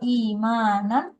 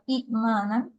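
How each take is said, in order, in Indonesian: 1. Dimulai dengan vokal panjang, tidak ada hentian glotis. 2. Ada hentian glotis setelah vokal pertama. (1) "hiccup is removed, changed into the long sound imanan" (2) "instead of imanan"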